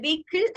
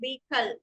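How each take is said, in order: First: "Vehicle" ending in "kill"; wrong pronunciation. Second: "vehicle" ending in "kul"; correct pronunciation. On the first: Teacher showing the minute difference, mispronounced. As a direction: say "Vehicle" as VAY-kil. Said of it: "Vehicle അല്ല". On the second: Teacher correcting the ending, carefully pronounced. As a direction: say "vehicle" as VAY-kul, h silent. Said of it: "it's vehicle". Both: Shown as a demonstration.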